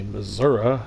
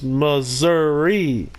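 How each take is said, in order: First: Missouri with a final "uh" sound; mocked wrong pronunciation. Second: Missouri drawn out slowly, ending in a clear "ee"; pronounced as spelled. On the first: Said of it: "Only idiots say Missouri". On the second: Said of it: "You say it like it's spelled". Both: Shown as a demonstration.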